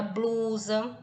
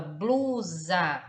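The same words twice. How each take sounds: First: Said in the usual way. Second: "blusa" drawn out in two beats, blu-sa; split into syllables. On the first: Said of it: "mesmo que a gente separe". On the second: Shown as a demonstration. Teacher showing students how the word divides, split into syllables. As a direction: separate "blusa" into blu and sa, each held. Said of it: "mesmo que a gente separe a palavra".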